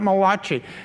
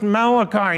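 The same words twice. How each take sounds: First: The name is said with an Italian-style pronunciation. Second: The name is said in the usual English way. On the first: This is the playful pronunciation for an Italian prophet. "not Malachi" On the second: This is the pronunciation others insisted on. "it's pronounced Malachi"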